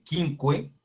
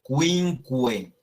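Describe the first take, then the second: First: "quinque" read as kin-ke, no w sound; slow "quinque" without the u; wrong reading. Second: "quinque" slowly as kwin-kwe; slow careful "quinque" with kw; Latin quinque. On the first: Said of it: "no se lee". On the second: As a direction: say both kw in "quinque". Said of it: "sino que se lee quinque". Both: Shown as a demonstration.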